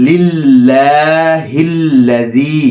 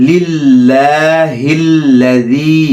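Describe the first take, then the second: No difference in how they are said.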